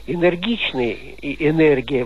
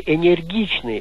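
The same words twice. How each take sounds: First: Энергичный и энергия with a hard N. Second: Энергичный with a softened N, as in "не"; soft N. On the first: Retold or imitated. Caller quoting how newsreaders say it, hard N. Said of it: "но вот так произносят". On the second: Shown as a demonstration. Caller showing the expected form, soft N. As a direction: say энергичный with palatalized N before the E. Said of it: "вот надо бы".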